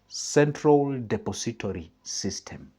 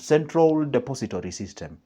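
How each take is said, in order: First: The phrase is spoken slowly and deliberately. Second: The phrase is spoken at a normal pace.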